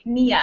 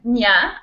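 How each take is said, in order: First: The ending is split into two syllables. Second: The ending is squeezed into one syllable. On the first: "I don't say nia" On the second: "I say like nya"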